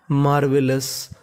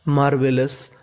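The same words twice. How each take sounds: The two takes are said the same way.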